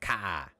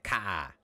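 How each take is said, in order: First: The r is dropped into a long ah. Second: The same.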